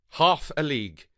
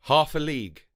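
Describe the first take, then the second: No difference in how they are said.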